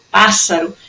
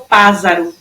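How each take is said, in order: First: The middle consonant is a hissing S sound. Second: The middle consonant is a buzzing Z sound. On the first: The speaker calls it right. "é som de S" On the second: The speaker calls it wrong. "eu não falo pássaro"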